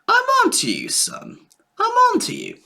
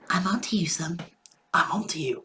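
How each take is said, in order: First: The voice is high and squeaky. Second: The voice is low and deep. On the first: The speaker calls it wrong. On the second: The speaker calls it right.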